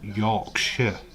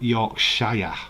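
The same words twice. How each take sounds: First: The last syllable is reduced to a short 'shuh'. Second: The last syllable is a full 'shire' sound. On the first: The speaker calls it right. "I am from Yorkshire" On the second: The speaker calls it wrong. "not Yorkshire"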